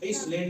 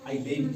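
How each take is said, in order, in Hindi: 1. l से पहले s की आवाज़ सुनाई देती है। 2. l से पहले s या z की आवाज़ सुनाई नहीं देती। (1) "या एस इसलैंड नहीं पढ़ना है" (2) "बल्कि आइलैंड पढ़ना है"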